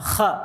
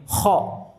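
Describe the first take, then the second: First: The vowel is said with open, unrounded lips. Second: The vowel is said with rounded, pushed-out lips. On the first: The speaker calls it right. "Terbuka tanpa monyong" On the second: The speaker calls it wrong. "Contohnya yang salah seperti ini"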